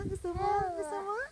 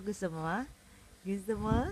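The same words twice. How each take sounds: First: Much higher-pitched coaxing question. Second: Said in the usual way. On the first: Real, not acted. Parent asks the baby if they want it, high baby talk.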